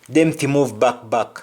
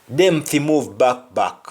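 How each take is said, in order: No difference in how they are said.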